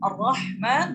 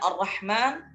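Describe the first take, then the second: First: The r sound is heavy and full. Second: The r sound is light and thin. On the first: The speaker calls it right. "Ra-nya itu dibaca tebal" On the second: The speaker calls it wrong. "Ar-nya dibaca tipis"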